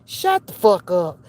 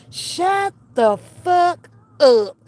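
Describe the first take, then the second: First: Low-pitched, contained shut-down; low scolding. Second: Very slow, word-by-word command; emphatic scolding. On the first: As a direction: drop the pitch and silence them. Imagined scolding, first take. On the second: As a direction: space out every word to silence them. Imagined scolding, emphatic repeat. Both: Pretend.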